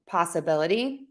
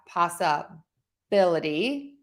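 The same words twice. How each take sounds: First: The stressed syllable is at a normal level. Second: The stressed syllable is strongly exaggerated. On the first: "let's do them just at a normal rate" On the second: "I'm overstressing those just so you can hear it"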